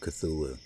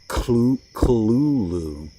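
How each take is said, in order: First: It is said with ordinary, smooth English sounds. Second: It is said with a throaty, cough-like sound. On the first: This is the usual way people say it. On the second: This is the closest to the creator's intended pronunciation.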